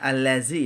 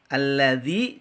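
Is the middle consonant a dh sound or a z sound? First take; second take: z; dh. First: The middle consonant is a buzzing z sound. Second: The middle consonant is a soft dh sound. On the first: The speaker calls it wrong. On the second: The speaker calls it right.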